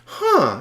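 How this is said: It sounds curious and interested.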